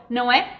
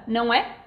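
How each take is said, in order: No difference in how they are said.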